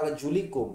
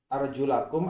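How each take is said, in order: First: The vowel after 'arjul' is i. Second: The vowel after 'arjul' is a. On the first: The feet are only wiped. "Tapi kalau dibaca wa arjulikum itu mengikuti kepada wamsahu biru'usikum" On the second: The feet are washed. "Kalau dibaca arjulakum artinya kaki itu dibasuh"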